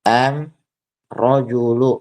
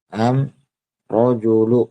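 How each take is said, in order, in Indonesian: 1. Artikel itu diawali dengan bunyi m. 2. Artikel itu diawali dengan bunyi m.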